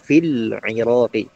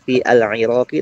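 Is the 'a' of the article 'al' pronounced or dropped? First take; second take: dropped; pronounced. First: The article's 'a' vowel is dropped entirely. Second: The article's 'a' vowel is clearly pronounced. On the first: The speaker calls it right. "tetapi fil iraqi" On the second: The speaker calls it wrong. "Bukan fi al iraqi"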